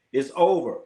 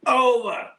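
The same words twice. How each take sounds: First: Said in the usual way. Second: Over sung out high and long, falling away; drawn-out high OVER. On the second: Real, not acted. Streamer to chat, declaring Klay finished, Over drawn out high. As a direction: stretch the word Over way up, then let it drop. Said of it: "It's over for Klay".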